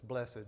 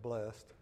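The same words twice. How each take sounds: First: The word is said with two syllables. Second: The word is said with one syllable. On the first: "I like to say it with two syllables" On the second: "instead of blessed"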